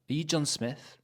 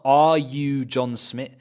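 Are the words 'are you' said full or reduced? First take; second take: reduced; full. First: 'Are you' is said in weak reduced forms. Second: 'Are you' is said in full strong forms. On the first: The speaker calls it right. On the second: The speaker calls it wrong.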